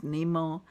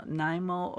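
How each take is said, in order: First: "Nemo" said NEE-moh; long-ee pronunciation. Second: "Nimo" said NIGH-moh; long-i pronunciation. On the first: Crafter offering the other version, long-ee pronunciation. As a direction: make "Nemo" start like "knee". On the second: Crafter repeating some people's version, long-i pronunciation. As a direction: make "Nimo" start like "nigh". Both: Shown as a demonstration. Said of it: "some people pronounce it as".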